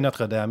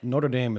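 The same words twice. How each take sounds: First: The name has French-style vowels, with no rolled R. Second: The name has an Americanized English pronunciation. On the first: The speaker calls it right. "You could say Notre Dame. You don't have to roll your R's" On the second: The speaker calls it wrong. "is a complete fool's way of saying that"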